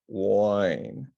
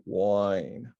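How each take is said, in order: No difference in how they are said.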